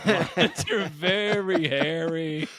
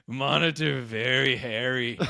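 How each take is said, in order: First: Very slow, higher, drawn-out silly voice; hammed-up repeat of a daft explanation; goofy put-on voice. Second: Slow, put-on simpleton delivery; silly deadpan explanation. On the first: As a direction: stretch it out goofily through laughter. Repeats the silly line, bigger. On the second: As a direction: lightly put on a goofy voice, half laughing. Retold silly explanation while shaving monitor.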